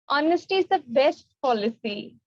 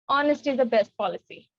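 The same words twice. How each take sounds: First: It is said in a happy tone. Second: It is said in an angry tone.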